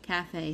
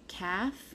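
First: It is said with two syllables, ca-fe. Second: It sounds like one syllable, like calf. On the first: It names the restaurant. The speaker calls it right. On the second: It sounds like a word for a baby cow. The speaker calls it wrong. "I don't know why I said calf like that"

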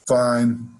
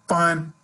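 First: The word sounds flat and half-hearted. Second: The word sounds sincere and genuinely content. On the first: The speaker is not really fine. "it didn't sound like I was fine, did it? Suddenly I was just kind of going through the motions" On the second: The speaker really is fine. "I could say the word fine a bunch of different ways"

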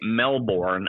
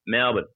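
First: It is said with an American accent. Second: It is said with an Australian accent.

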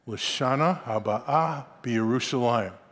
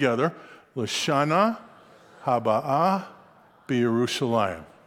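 First: The phrase is said at a faster pace. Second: The phrase is said at a slower pace.

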